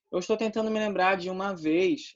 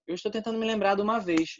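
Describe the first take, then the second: First: "de uma" said apart as two words, "dji uma"; separate de uma. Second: "de uma" run together as "d'uma", the e dropped; contracted d'uma. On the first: Teacher shows "de uma" uncontracted, each word said separately. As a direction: keep "de uma" fully separate, dji then uma. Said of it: "eu não contraí, eu fui separado". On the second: Teacher shows "de uma" contracted into d'uma. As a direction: glide "de uma" into one word, d'uma. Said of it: "Mas eu posso falar contraído também". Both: Shown as a demonstration.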